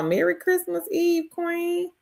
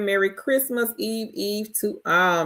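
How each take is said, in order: First: High, sing-song holiday greeting; cheerful greeting. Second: Said in the usual way. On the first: Real, not acted. Host returning a viewer's Christmas Eve wish, high and cheerful. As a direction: beam it back to her warmly. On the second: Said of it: "[name] says".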